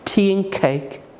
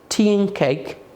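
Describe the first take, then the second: Both takes have the same delivery.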